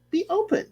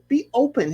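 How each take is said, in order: First: Much higher with a lifting end on "Be open"; coaxing Hannah, high and rising; high pleading. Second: Said in the usual way. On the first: Shown as a demonstration. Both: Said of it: "repeated advice to Hannah".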